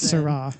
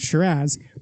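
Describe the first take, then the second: First: The word ends with an 'ah' sound. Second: The word ends with a 'z' sound. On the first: The speaker calls it right. "It's Syrah" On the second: The speaker calls it wrong. "which one might think is pronounced Shiraz, but it's not, and only stupid people pronounce it that way"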